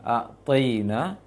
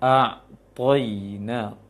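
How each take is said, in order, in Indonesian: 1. Bunyi 't' itu ringan dan tipis. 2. Bunyi 't' itu berat dan tebal. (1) "pengucapan to-nya kurang K O sehingga baca taina"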